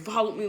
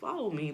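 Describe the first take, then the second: First: It is said in an angry, scolding tone. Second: It is said in a soft, gentle tone. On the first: The speaker is mad at the listener. "he said it angrily" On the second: The speaker is gentle but still commanding. "it was soft too"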